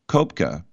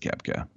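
First: The first vowel is a long rounded umlaut sound. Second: The first vowel is a plain short 'eh' sound. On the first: This follows the German spelling. "if you say the German ... you want to pronounce it long" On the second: This is how the man himself says it. "But he says Kepka"

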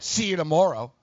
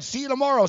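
First: It is said in a menacing, threatening tone. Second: It is said in a light, friendly tone. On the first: A veiled threat of a confrontation. "I think he said" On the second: A casual, pleasant goodbye. "I don't think he said"

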